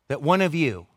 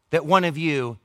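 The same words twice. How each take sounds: The two takes are said the same way.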